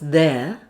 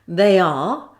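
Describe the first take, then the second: First: The words are squeezed into one contracted syllable. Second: Both words are said in full.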